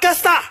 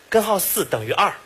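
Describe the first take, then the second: First: Most syllables are swallowed into a short mumble. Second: Every syllable is pronounced clearly.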